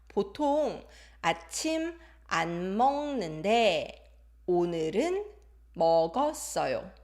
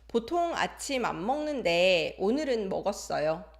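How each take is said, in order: First: It is read slowly and carefully. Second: It is read faster and more naturally.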